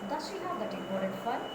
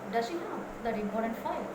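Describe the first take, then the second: First: The final sounds of the words are clipped. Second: The final sounds of the words are fully pronounced. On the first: The speaker calls it wrong. "This is how many uh, uh, pronounce it" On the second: The speaker calls it right. "it is important to say"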